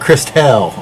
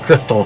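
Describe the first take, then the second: First: It is said like 'Christelle', ending in '-elle'. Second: It is said like 'Crystal', ending in '-tal'. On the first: Someone else said it this way. "Christelle is what the guy how he uh, how he how he pronounced" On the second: This is the usual name. "instead of Crystal"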